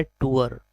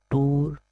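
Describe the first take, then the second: First: टूअर in two beats, "too-er"; correct pronunciation. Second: टूर in one beat, "toor"; one long oo straight into r in टूर; mispronunciation demo. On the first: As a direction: add a schwa glide in टूअर. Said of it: "right pronunciation है". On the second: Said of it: "not टूर". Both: Shown as a demonstration.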